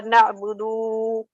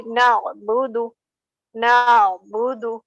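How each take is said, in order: First: Na'budu with a long, held final du; wrongly prolonged ending. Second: Na'budu measured, with a short final du; correct unprolonged reading. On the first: Retold or imitated. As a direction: drag out the end of na'budu. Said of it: "No, it's wrong". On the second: Shown as a demonstration. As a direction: release the du of na'budu promptly. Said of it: "We don't have to prolong".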